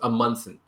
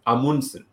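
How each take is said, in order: First: The name is said in a plain, anglicized way. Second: The name is said the Norwegian way. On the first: The speaker calls it wrong. "the first way we started saying this was Amundsen. So it's a very like plain, mellow way" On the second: The speaker calls it right. "the right way to say it is Amundsen"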